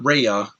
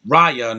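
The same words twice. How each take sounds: First: "Raya" said RAY-uh; the wrong "Raya", first syllable like "ray"; mispronunciation. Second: "Raya" said RYE-uh; correct pronunciation. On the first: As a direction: say "Raya" with an "ay" as in day. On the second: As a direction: say "Raya" firmly with a long "eye" vowel. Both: Shown as a demonstration. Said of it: "they're saying it wrong".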